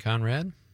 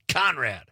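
First: The first sound is soft and lazy. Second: The first sound is hard and forceful. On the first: The speaker calls it wrong. "You just said it with a C" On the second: The speaker calls it right. "K is hard hitting"

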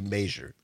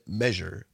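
First: It is said with a local regional pronunciation. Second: It is said the common, widespread way. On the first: This is how people from one small town say it. "but in Richland Center we say measure" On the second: This is how most people say it. "I know most people say measure"

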